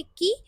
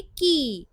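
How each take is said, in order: First: Said in the usual way. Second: की with the vowel held long. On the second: Shown as a demonstration. Japanese teacher reading the long sound, vowel drawn out. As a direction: stretch the ई in की. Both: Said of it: "की का long sound".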